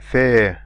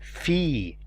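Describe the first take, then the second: First: The vowel is an 'ay' sound, as in face. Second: The vowel is a long 'ee' sound. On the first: The speaker calls it wrong. "you don't say fe, for example, like face" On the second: The speaker calls it right. "you say fi"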